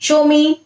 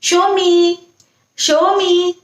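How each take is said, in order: First: It is said in a flat, expressionless tone. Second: It is said in a warm, affectionate tone. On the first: "कोई भी expression नहीं देना है" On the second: "प्यार से बोलना"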